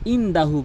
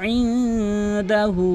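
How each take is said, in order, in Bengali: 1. n ছোট ও সাধারণ। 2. n নাসিকাযুক্ত ও টেনে উচ্চারিত। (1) "অধিকাংশ লোক ইনদাহু বলে" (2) "গুন্না করতে হবে"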